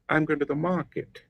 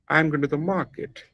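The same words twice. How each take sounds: No difference in how they are said.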